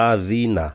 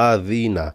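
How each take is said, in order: The two takes are said the same way.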